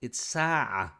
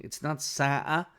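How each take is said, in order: First: Sa'a said with a true throaty ain in the middle; proper Arabic sa'a with ain; correct pronunciation. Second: Sa'a said with a glottal catch in place of the ain; wrong pronunciation. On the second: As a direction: say sa'a the non-Arab way, hamza instead of ain. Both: Shown as a demonstration. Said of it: "This is a mistake in the pronunciation".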